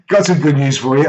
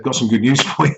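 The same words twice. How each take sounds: First: Lightly acted cheery news, higher pitched; upbeat announcement. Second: Breaking into a laugh mid-line. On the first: Husband phones Lynn with news, upbeat. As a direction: retell it as a bright phone announcement. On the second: Real, not acted. Husband phones Lynn with news, cracking up laughing. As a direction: try to say it, cracking up.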